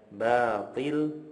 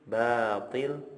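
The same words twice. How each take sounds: First: The first sound is light and thin. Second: The same.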